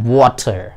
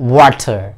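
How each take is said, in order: First: It is said in a British accent. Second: The same.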